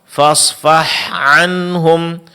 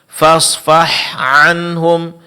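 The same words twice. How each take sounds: The two takes are said the same way.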